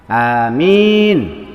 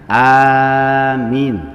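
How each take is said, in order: First: The second vowel is drawn out long. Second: The first vowel is drawn out long. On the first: It means safe or secure. "kalau minnya yang panjang" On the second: It means honest or trustworthy. "kalau alifnya itu dibaca panjang"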